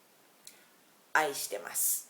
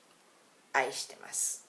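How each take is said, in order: First: 愛してます said slowly, each syllable clear; teacher models 愛してます slowly; slow demo 愛してます. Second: Said in the usual way. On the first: Shown as a demonstration. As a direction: spell out 愛してます for learners. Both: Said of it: "literal translation of "I love you" is".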